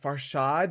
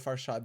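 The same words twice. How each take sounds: First: The name is said hesitantly, like a question. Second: The name is said plainly and confidently. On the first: "They're always unsure" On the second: "They'll say my name correctly"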